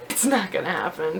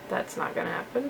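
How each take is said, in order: First: Said in the usual way. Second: A self-mocking whispered aside. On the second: Real, not acted. Vlogger doubting she'll become an artist, whispered. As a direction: whisper it under the breath, no voice.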